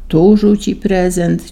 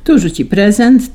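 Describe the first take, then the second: First: Reading it back. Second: Said in the usual way. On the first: A narrator's reading. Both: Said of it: "ciągnął".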